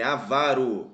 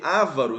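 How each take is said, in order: First: The stress is on the second syllable. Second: The stress is on the first syllable. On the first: The speaker calls it right. "é avaro, paroxítona" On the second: The speaker calls it wrong. "não"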